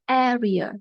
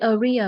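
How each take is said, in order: First: The stress is on the first syllable. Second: The stress is on a later syllable. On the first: The speaker calls it right. "we say area; Vậy nhấn âm một ha" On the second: The speaker calls it wrong. "we don't say area"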